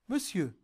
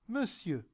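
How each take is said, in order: Both takes have the same delivery.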